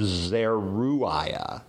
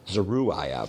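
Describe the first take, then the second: First: Zeruiah with a strong rolled ZER and a held r; first try at Zeruiah. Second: Zeruiah with the first syllable reduced to zuh and the weight on -iah; second try at Zeruiah. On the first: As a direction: say Zeruiah as ZER-u-iah, stressing ZER. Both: Shown as a demonstration. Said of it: "depending on where you put the accent".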